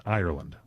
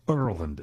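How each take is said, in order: First: Ireland said as EYE-er-land; Irish pronunciation. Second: Ireland clipped to ER-land, first vowel dropped; local pronunciation. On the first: Host showing how to say Ireland, eye-er-land. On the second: Host giving the local Ireland, er-land. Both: Shown as a demonstration. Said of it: "as we say".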